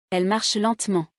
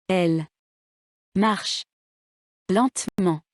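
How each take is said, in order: First: Elle marche lentement run together, falling on lentement; one phonetic word. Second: Elle, marche, lentement each stressed alone, long pauses between; word by word. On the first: Teacher showing students a phonetic word, Elle marche lentement in one breath. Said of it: "contiennent un seul mot prononcé". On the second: Teacher showing written words one at a time, word by word. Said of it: "Faites attention à l'accent tonique". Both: Shown as a demonstration.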